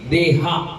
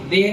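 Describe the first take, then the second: First: The word ends in a long aa vowel. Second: The word ends on the consonant with no vowel. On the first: The speaker calls it right. "हा आ की मात्रा है ना" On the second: The speaker calls it wrong. "देह नहीं है"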